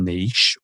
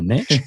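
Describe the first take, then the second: First: Niche is said the British way, like neesh. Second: Niche is said the American way, like nitch.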